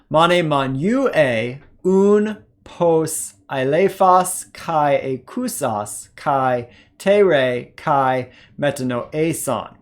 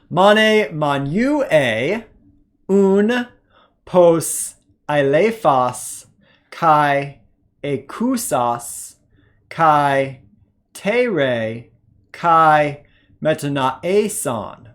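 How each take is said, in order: First: The passage is read at a faster pace. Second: The passage is read at a slow pace. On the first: "A little bit faster this second time" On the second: "let's go ahead and do our slow reading"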